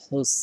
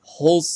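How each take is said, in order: First: "হুস" with a thin, light s; thin Sin sound. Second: "হুস" with a thick, heavy Arabic Sad; thick Sad sound. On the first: Teacher contrasting Sin with Sad, thin light "হুস". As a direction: keep "হুস" fine and soft, a plain Sin. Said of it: "সিনের ক্ষেত্রে সাউন্ডটা চিকন হবে". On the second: Teacher showing learners the Sad sound, thick emphatic "হুস". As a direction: make the s in "হুস" full and emphatic. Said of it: "সদের ক্ষেত্রে সাউন্ডটা মোটা হবে". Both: Shown as a demonstration.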